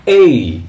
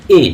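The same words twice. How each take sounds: First: এই as a loud gliding "ay-ee", falling; correct pronunciation. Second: এ as one pure vowel, no glide; common wrong pronunciation. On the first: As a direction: stretch এই from e into i. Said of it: "এর উচ্চারণ হচ্ছে". (এই-র সঠিক উচ্চারণ, জোরে টেনে এ থেকে ই) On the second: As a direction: say এ flat as a single vowel, the mistaken way. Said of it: "এর উচ্চারণ এ নয়". (এ-র ভুল উচ্চারণ, টান ছাড়া একটাই স্বর) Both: Shown as a demonstration.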